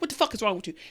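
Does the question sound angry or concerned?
angry. It sounds angry, as if cursing at someone.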